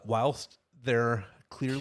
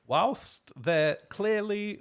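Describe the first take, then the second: First: It is said in a plain American accent. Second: It is said in a put-on British accent.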